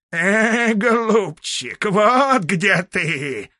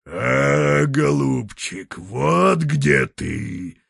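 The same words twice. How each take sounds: First: High, slow bleating voice; bleating ram's head. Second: Slow, lightly voiced bear roar. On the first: Acted. A ram's head bleats mockingly from the treetop. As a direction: bleat it out like a ram. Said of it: "заблеяла баранья голова". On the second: A bear pokes out its snout and roars at grandfather. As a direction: drag it out like a bear, mildly. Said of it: "заревел медведь".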